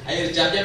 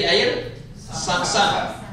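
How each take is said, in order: First: The word starts with a z sound. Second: The word starts with an s sound.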